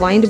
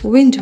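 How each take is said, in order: First: The vowel sounds like 'eye'. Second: The vowel sounds like short 'ih'. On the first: The speaker calls it wrong. "हम इसे वाइंड बोल देते हैं" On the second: The speaker calls it right. "सही उच्चारण विंड होगा"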